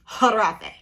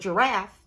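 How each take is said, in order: First: The word begins with an H sound. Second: The word begins with a J sound. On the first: "I don't pronounce the G. It's silent because we are luxury over here" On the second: "it is a giraffe"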